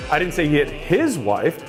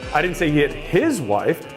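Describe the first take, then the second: First: The stress is on the word his. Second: The same.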